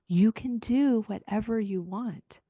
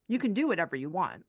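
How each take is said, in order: First: The tone sounds warm and encouraging. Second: The tone sounds dismissive and curt. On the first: There is real freedom to choose. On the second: It does not matter what is chosen.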